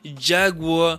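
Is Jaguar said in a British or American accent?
American. It is said in an American accent.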